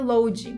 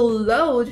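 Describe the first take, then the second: First: Load is said with a Brazilian Portuguese pronunciation. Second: Load is said with an English pronunciation. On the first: The speaker calls it wrong. "diferente do que load" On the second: The speaker calls it right. "a forma correta mesmo de pronunciar é upload"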